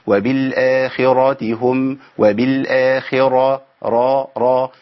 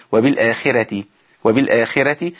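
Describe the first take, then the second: First: وبالآخرة with a full, heavy ر. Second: وبالآخرة with a thin, light ر. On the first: Teacher showing students the heavy ر in وبالآخرة. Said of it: "تفخيم الراء أقول إيه". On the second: Teacher showing students a thin ر in وبالآخرة. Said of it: "بيرقق الراء يقول إيه". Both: Shown as a demonstration.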